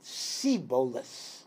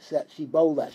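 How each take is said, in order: First: The word begins with an 's' sound. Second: The word begins with a 'sh' sound. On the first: The speaker calls it wrong. "They had difficulty pronouncing shin. ... They would say it siboleth" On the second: The speaker calls it right. "Say the word shiboleth"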